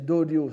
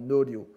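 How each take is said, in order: First: The word begins with a D sound. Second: The word begins with an N sound. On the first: This is the older reading of the word. "c'était prononcé doryo sans doute à l'époque" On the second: This is the usual modern reading of the word. "on le lit généralement noryo"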